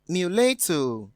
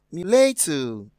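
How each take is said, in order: First: "mulatto" repeated slowly, stress on the second syllable, mew-LAH-toe; careful model pronunciation. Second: "mulatto" said slowly, stress on the second syllable, mew-LAH-toe; careful model pronunciation. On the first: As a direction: say "mulatto" again, slow and clear, weight on LA. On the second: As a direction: say "mulatto" slowly as a teacher, with the weight on LA. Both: Shown as a demonstration. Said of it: "This word is pronounced".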